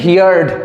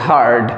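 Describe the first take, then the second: First: It is said like 'hee-yard', two syllables. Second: It is said like 'hurd', one syllable. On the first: The speaker calls it wrong. "উচ্চারণটা কিন্তু হিয়ার্ড এরকম করবে না" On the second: The speaker calls it right. "হিয়ার্ড নয় হার্ড বলবে"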